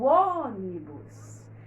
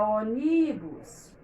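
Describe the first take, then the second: First: The stress is on the first syllable. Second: The stress is on the middle syllable. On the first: The speaker calls it right. "A sílaba que a gente demora é essa aqui, a antepenúltima" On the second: The speaker calls it wrong. "Se eu demorasse no meio, eu diria"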